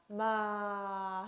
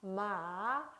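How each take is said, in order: First: The pitch falls low through the syllable. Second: The pitch dips and trails off smoothly. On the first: "마 하고 내려줘요" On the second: "흘려주듯이 발음을 하면 되겠습니다"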